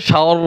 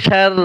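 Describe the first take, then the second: First: "শার" said dark and rounded, like "shawr"; heavy r. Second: "শার" said light and open, like "shar"; thin r. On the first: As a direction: thicken the r and vowel of "শার". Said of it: "আর মোটা হচ্ছে". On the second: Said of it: "পাতলা হচ্ছে". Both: Shown as a demonstration.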